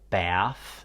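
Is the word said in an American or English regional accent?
American. It is said in an American accent.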